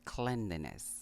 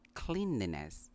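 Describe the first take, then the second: First: The first syllable has a short vowel, clen. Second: The first syllable sounds like the word clean. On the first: The speaker calls it right. "but cleanliness" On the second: The speaker calls it wrong. "It's not cleanliness"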